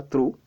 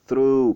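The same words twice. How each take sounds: First: "through" with hard T and short vowel, like "troo"; wrong pronunciation. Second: "through" with airy TH and long oo; correct, lengthened "through"; stretched vowel. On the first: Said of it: "pas through". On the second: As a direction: draw out the end of "through", loud and falling. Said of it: "étirer la prononciation du U". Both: Shown as a demonstration.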